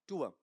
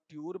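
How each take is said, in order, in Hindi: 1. स्वर से पहले कोई ग्लाइड नहीं आती। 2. स्वर से पहले 'y' ग्लाइड आती है। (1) "टूवा ऐसा बनेगा।" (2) "ट्यूर बनाऊंगा या टूवा?"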